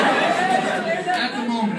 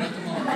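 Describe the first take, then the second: First: High, loud, slow laughing emphasis. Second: Said in the usual way. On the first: Shown as a demonstration. Comic admitting to audience they were broke, laughing emphasis. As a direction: stretch it out through a laugh. Repeating joke about being broke.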